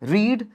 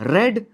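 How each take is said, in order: First: The vowel is long, like 'reed'. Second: The vowel is short, like 'red'.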